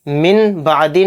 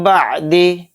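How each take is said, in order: First: मिन बादी with the नून clear, quick; wrong reading. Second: मिम बादी with नून merged into मीम; correct recitation. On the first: Teacher warning pupils, quick मिन बादी. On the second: Teacher drilling pupils, merged मिम बादी. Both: Shown as a demonstration. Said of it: "मिन बादी नहीं कहेंगे".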